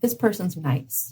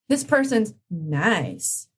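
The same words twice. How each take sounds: First: It is said sincerely, without air-quote irony. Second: It is said sarcastically, as if in air quotes.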